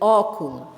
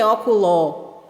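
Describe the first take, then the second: First: The final vowel sounds like 'u'. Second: The final vowel is a clear 'o' sound. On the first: The speaker calls it right. "você lê óculo, ... o som é da vogal U" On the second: The speaker calls it wrong. "você não lê óculo"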